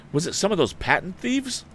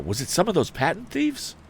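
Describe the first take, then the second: First: High, urgent question; eager question. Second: High, urgent question again; eager question. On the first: Tom urging the wounded man, high and eager. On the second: Tom rereading the line to the wounded man, high. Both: A narrator's reading. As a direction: press him urgently. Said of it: "cried Tom".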